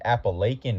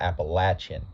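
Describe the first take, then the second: First: It is said the northern regional way. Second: It is said the southern regional way. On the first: "regarded as the Appalachian Mountains in the north" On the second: "towards the south, it's referred to as the Appalachian"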